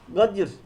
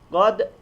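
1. d sesinden sonra fazladan bir i ünlüsü geliyor. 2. d sesinden sonra hiç ünlü gelmiyor. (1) "Burada en fazla yapılan hata şudur. Gadir" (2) "doğrusu böyle olacak"

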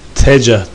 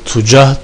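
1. İlk ünlü a. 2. İlk ünlü u. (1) "fetha ile" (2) "zamme ile"

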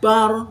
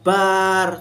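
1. Vokal dalam 'bar' tetap dibaca pendek. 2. Vokal dalam 'bar' dipanjangkan. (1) "makanya dibaca pendek" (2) "bukan bar"

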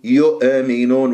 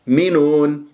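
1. الهمزة تُنطق مع قلقلة ترتد فيها كالصدى. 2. الهمزة وقفة حنجرية واحدة نظيفة. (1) "البعض يقلقلها يقول يؤمنون يؤمنون وهذا خطأ" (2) "نفكك الكلمة إلى مقطعين، المقطع الأول ينتهي بالهمزة"

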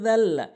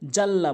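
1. প্রথম ধ্বনিটি জিভ দাঁতের সঙ্গে লাগিয়ে বলা হয়। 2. প্রথম ধ্বনিটি সাধারণ 'z'। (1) "জিব্বার আগা দাঁতের আগা" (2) "যে ভুলটি বলে জাল্লা বলে"

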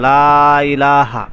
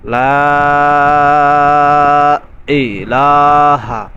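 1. 'ilaha'-র আগে কোনো গলা আটকানোর শব্দ শোনা যায় না। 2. 'ilaha'-র আগে গলা আটকানোর শব্দ শোনা যায়। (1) "আপনার আমজাটা আসলো না" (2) "বলতে হবে"

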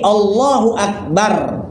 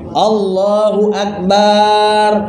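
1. Vokal di 'bar' dipendekkan. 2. Vokal di 'bar' dipanjangkan. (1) "Tidak, tapi" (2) "jangan manjangkan akbarnya"

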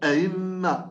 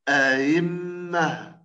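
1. الحركة الأولى مختلسة ومقطوعة قصيرة. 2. الحركة الأولى محققة وواضحة تماماً. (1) "البعض يعني قد يختلس حركة الهمزة الأولى مباشرة، أيمه مباشرة هكذا" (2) "همزة محققة مفتوحة فتحة كاملة"

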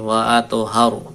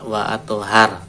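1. Bunyi r di akhir diucapkan tebal dan berat. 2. Bunyi r di akhir diucapkan tipis dan ringan. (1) "tapi wa atuhar ditebalkan" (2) "tidak wa atuhar"

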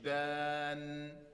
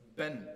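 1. Der Vokal wird lang gezogen. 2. Der Vokal wird kurz gehalten. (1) "nicht Ben" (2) "nicht langziehen, ... sondern Ben"

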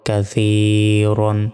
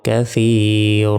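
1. শব্দটি -an দিয়ে শেষ হয়, শেষে একটি n আছে। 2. শব্দটি দীর্ঘ a দিয়ে শেষ হয়, n নেই। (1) "র 2 জবর রন" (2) "একটা জবরের উচ্চারণ হবে"

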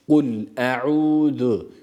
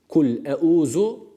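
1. Ünsüz peltek th benzeri bir sestir. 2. Ünsüz sert z sesidir. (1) "peltek olan z harfi" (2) "keskin olan z harfi olarak okumaktan yine kaçınıyoruz"

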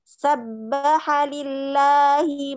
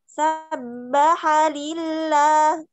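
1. Dimulai dengan nada rendah yang datar. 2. Dimulai dengan nada tinggi yang naik. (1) "nada rendah aja" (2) "jangan ya"

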